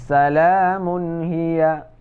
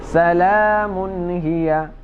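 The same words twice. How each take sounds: No difference in how they are said.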